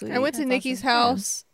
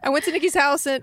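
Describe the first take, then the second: First: The voice sounds sad and gloomy. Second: The voice sounds happy and upbeat. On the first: Something bad happened there. The speaker calls it wrong. "It sounded really sad" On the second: It is just the start of a casual story. The speaker calls it right. "Let me fix the inflection of my voice. / Oh my gosh, she's happy"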